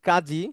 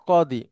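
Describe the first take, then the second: First: The middle consonant is a j sound. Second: The middle consonant is a d sound. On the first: This is the Bengali form. "আমরা যেটা বলি কাজী" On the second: This is the Arabic form. "আরবিতে সেটা কদি"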